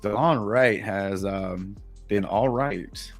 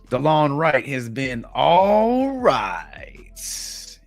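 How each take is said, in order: First: It is said hesitantly with a filler pause. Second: It is said smoothly with confident conviction.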